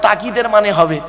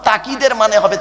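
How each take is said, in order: No difference in how they are said.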